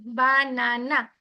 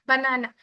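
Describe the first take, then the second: First: banana slowly broken into three separate beats; banana drawn out in three distinct parts; split into syllables. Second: Said in the usual way. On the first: Shown as a demonstration. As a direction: say banana one syllable at a time, evenly spaced. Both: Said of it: "তিনটা বিটে আমি উচ্চারণ করলাম".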